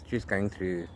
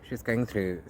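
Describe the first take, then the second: No difference in how they are said.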